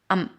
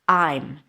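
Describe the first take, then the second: First: It has a short, reduced vowel. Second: It has a full, long diphthong vowel. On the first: "I pronounce it myself as um" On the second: "I'm pronouncing it as I. Mm. ... that's the stressed form"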